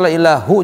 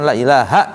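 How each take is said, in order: First: The word ends with the vowel u. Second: The word ends with the vowel a. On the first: The speaker calls it wrong. "Enggak boleh dibaca la ilahu" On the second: The speaker calls it right. "secara nahwu ya la ilaha illallah"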